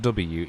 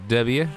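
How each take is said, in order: First: The letter is said in a neutral accent. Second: The letter is said in a Texan drawl. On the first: "W is not W" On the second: "Texas people just like W is not W, it's W"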